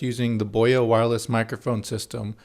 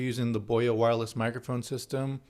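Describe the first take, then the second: First: The sound comes from both speakers equally. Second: The sound comes from only one side. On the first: The speaker calls it right. "in a mono mode" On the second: The speaker calls it wrong. "but in stereo"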